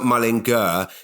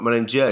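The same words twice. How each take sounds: First: The middle consonant is a hard G sound. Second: The middle consonant is a J sound. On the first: The speaker calls it wrong. "It's not Mullinger" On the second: The speaker calls it right. "there's clearly a J in there"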